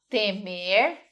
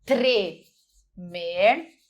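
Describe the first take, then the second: First: Temer said with a plain T, no R; temer without R. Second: Tremer with the R after the T sounded clearly. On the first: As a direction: say temer dropping the R. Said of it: "porque se eu falo temer". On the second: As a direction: stress the TR cluster in tremer. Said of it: "é outra". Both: Shown as a demonstration.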